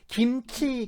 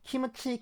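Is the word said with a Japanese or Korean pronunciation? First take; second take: Korean; Japanese. First: It ends in a closed m sound. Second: An extra vowel follows the m sound. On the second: "김치 미음 받침 발음을 못하니까 이거를 키무치"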